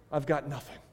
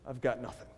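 First: Quiet, downcast "I've got nothing."; a hint of a broken man, quiet; near tears. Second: Much softer, lower "I've got nothing."; trailing off as if the tears finally come; fading despair. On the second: Acted. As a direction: let "I've got nothing." die away to almost nothing. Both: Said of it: "almost on the verge of tears".

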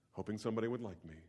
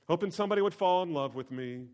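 First: Said in the usual way. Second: Hoping somebody — said louder and higher; louder, higher emphatic repeat. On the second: Acted. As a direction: build the phrase up and push it out.

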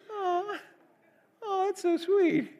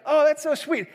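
First: Very high, slow, teary gush; gushing teacher. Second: A lighter high coo, louder; mock doting teacher, less teary; gushing teacher again. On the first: Retold or imitated. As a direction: coo over the toddler like a doting teacher. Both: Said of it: "You probably don't sound like that".

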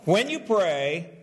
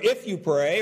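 First: "when you pray" slow, rising on "you"; emphatic when. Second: "If" punched, rising; stress on if. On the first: Pastor insisting to congregation, slow emphatic. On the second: Pastor contrasting for congregation, stress on if. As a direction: hit "If you pray" as the rejected wording. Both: Shown as a demonstration. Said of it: "So he doesn't say".

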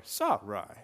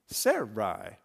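First: "Sarai" drawn out as SAH-rye; second pronunciation of Sarai. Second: "Sarai" drawn out as SAIR-eye; first pronunciation of Sarai. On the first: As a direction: slowly sound out "Sarai" with "ah" in front. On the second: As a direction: slowly sound out "Sarai" with "air" in front. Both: Shown as a demonstration. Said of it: "how words are pronounced".

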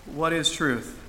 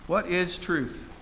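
First: Said in the usual way. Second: Drawn out, very slowly, letting it sink in; slow, pondering. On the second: Acted. Preacher repeats the question to the congregation, slowly pondering. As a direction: weigh each word, slow and reflective.

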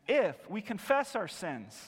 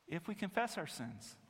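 First: "if" hit hard, the rest falls away; stress on if. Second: "if we confess our sins" said softly, stress moved to "confess"; softer repeat. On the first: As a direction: lean on "if" as the condition. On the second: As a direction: drop the volume and lean on "confess". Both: Shown as a demonstration. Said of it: "if, that's the condition".

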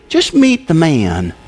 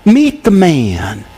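First: Slow, weighted meet the man; slow emphasis. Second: Very slow, each word given weight; slower, emphatic. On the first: Preacher urging the congregation, slow and weighty. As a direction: lean into each word slowly. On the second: Preacher repeating the charge to the congregation, very slow. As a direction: land meet the man slowly. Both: Shown as a demonstration. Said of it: "read it through again slowly".

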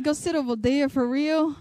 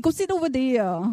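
First: Mildly disbelieving repeat of the instruction; incredulous echo. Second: Imitated Vietnamese-accented English. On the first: Retold or imitated. Customer questioning where she was told to sit, mild disbelief. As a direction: echo it back as a reluctant question. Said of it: "so I'm like". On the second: Salon lady telling a customer where to sit, imitated Vietnamese accent. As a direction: put on a rough Vietnamese accent. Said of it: "My accents, right?".

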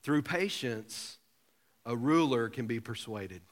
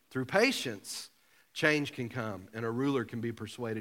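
First: Scripture reading. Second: Said in the usual way. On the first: Shown as a demonstration. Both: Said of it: "Look at Proverbs twenty-five fifteen".

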